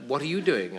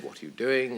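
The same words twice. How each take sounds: First: "you" picked out to turn the question back; stress on YOU. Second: Said in the usual way. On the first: Retold or imitated. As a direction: lean on "you", asking it in return. Returns the same question to him.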